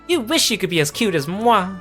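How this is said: It is spoken in a put-on little girl voice. "I can't really do little girl voices"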